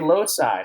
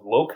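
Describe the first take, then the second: First: The c is said with a soft s sound. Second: The c is said with a hard k sound. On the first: The speaker calls it right. "It's pronounced loci" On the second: The speaker calls it wrong. "Did you just say loci? ... Are you kidding me?"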